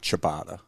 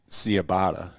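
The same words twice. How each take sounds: First: The word begins with a 'ch' sound. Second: The word does not begin with 'ch'. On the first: The speaker calls it right. "you say" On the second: The speaker calls it wrong. "you don't say"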